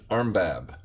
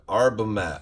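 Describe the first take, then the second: First: The name is said with two syllables. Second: The name is said with three syllables. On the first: The speaker calls it wrong. "not Armbab" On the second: The speaker calls it right. "Arbamab, not Armbab"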